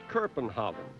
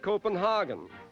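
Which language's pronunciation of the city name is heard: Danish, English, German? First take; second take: Danish; German. First: The name is pronounced the Danish way. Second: The name is pronounced the German way. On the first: "the Danes now call it" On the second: "The Germans pronounce it"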